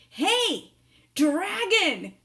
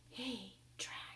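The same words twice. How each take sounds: First: It is shouted very loudly. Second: It is whispered very softly.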